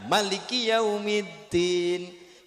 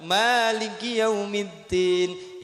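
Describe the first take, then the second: First: The vowel after the m is held one beat. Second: The vowel after the m is held two beats. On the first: This is the reading of another school of law. "Mimnya satu ketukan" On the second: This is the reading of one school of law. "Mimnya dua ketukan"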